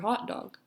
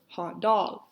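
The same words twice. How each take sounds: First: The stress falls on the word hot. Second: The stress falls on the word dog. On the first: It is a compound. "Compounds are typically characterized by an emphasis on the first word" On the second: It is a phrase. "Phrases are typically more emphasized on the second word"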